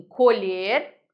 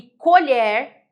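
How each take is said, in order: First: Colher said with open ó, as the verb; colher with an open vowel, like the verb to pick; colher with a stressed open ó, verb sense. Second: Colher said with closed ê, as the noun spoon; colher slow and loud, closed ê; colher with a stressed closed ê, noun sense. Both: Shown as a demonstration. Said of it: "Olha a pronúncia como muda".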